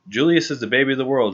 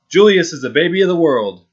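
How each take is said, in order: First: It is said at a softer volume. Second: It is said at a louder volume.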